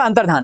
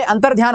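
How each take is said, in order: First: अंतर्धान ending in dhaan; corrected, no glide. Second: अंतर्ध्यान ending in dhyaan; mistaken y glide. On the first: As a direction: say अंतर्धान with no y after dh. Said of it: "ये क्या हो जाएगा". (अंतर्धान, बिना य के धान) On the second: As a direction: add a y after dh in अंतर्ध्यान. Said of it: "जो अशुद्ध वाला होता है". (अंतर्ध्यान, ध के साथ य) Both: Shown as a demonstration.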